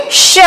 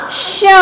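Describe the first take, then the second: First: Said in the usual way. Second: श with the vowel hummed through the nose; nasalized vowel. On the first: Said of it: "फिर हम लगाएंगे". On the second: Shown as a demonstration. Teacher showing children chandrabindu, nasalized श. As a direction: draw out श as a nasal शँ. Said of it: "इसका उच्चारण निकलेगा".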